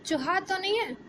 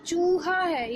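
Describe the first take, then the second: First: चूहा said wrongly with a short उ. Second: चूहा with a long stretched ऊ; long oo in chooha. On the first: Teacher to class, showing the wrong short उ. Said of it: "चूहा बोलते इसको तो क्या". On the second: Teacher to class, showing the right long ऊ. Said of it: "बड़े ऊ की मात्रा". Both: Shown as a demonstration.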